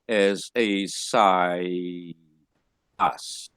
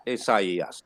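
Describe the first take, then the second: First: Slow "as a sigh" then "us" unvoiced, no separate e; mistaken reading. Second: "e us" with the e sounded apart; correct diaeresis. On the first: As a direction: read it wrongly as "sigh, us", slow. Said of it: "you will just read it". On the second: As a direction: split "e us" into two clear syllables. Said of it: "that's the diaresis". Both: Shown as a demonstration.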